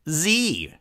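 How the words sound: The letter is said the American way. "American pronunciation"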